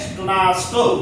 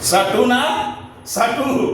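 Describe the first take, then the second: First: The s and t sounds are joined together. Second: A vowel splits the s and t sounds. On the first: The speaker calls it right. "वास्तव में इसका उच्चारण है स्टुनास्टु" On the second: The speaker calls it wrong. "भले ही यहां वो पढ़ते थे सटू ना सटू"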